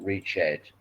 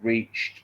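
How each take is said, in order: First: The ending is an extra ed syllable, two syllables. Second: The ending is a plain t sound, one syllable. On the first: The speaker calls it wrong. "not reached" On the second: The speaker calls it right. "she reached"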